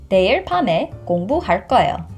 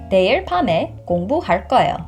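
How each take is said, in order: The two takes are said the same way.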